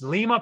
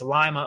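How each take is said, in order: First: It is pronounced like the city in Peru. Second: It is pronounced like the town in Ohio. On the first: This is the name of the city in Peru. "I was told it's Lima, Peru" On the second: This is the name of the town in Ohio. "It's Lima, Ohio. I guess it's spelled the same"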